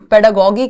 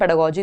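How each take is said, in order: First: The last syllable starts with a hard g. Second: The last syllable starts with a j sound. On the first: "कई बार इसको पेडागोगी कह देते हैं" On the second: "अगर हम phonological awareness रखते हैं यानी बोलना कैसे है, तो हम पेडागोजी इसको बोलेंगे"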